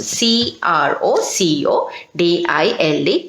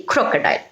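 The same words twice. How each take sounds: First: C R O C O D I L E spelled letter by letter, lower. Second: Said in the usual way. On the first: Shown as a demonstration. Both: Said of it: "Underline crocodile also".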